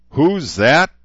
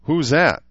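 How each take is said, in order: First: Loud, high shout rising at the end. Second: Loud high demand, falling at the end. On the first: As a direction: yell it in their faces. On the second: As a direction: throw the question at them loudly. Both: A narrator's reading. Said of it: "he shouted".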